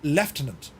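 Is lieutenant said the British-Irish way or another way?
British-Irish. It is said the local British-Irish way. This is how people say it locally. "over here we call them Lieutenant"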